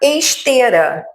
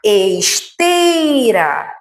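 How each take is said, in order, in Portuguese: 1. A palavra é mais curta, com a vogal 'e' simples. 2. A palavra é mais longa, com o ditongo 'ei'.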